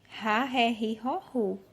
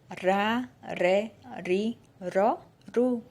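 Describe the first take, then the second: First: The R is a strong, harsh sound. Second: The R is a light tapped sound. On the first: This is the R at the start of a word. "E rei, ... tem o ré" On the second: This is the R of a single R between vowels. "No meio da palavra, quando é um R só, aí ele já muda o som"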